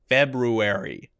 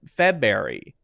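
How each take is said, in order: First: The R after the first syllable is clearly heard. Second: The R after the first syllable is not heard. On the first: The speaker calls it right. "make sure to say the R sound clearly" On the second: The speaker calls it wrong. "this is not a correct way to say this"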